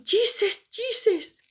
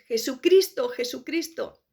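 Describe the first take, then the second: First: "Jesus" cried high as chises, English style; high desperate "Jesus" with English pronunciation. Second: Said in the usual way. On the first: Retold or imitated. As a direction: cry out "Jesus" in English, pitched way up. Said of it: "mis últimas palabras fueron". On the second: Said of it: "que es".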